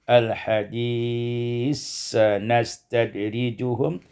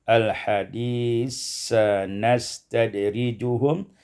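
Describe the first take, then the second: Both takes have the same delivery.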